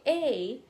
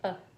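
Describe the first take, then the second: First: The article is said with a full vowel. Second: The article is said as a reduced schwa. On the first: "if you want to emphasize on it" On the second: "but you can just say"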